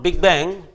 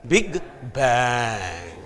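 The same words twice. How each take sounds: First: The two words run together as one term. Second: The two words are said with a pause between.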